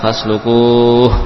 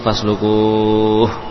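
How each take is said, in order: First: The long vowel is held for four counts. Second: The long vowel is held for six counts.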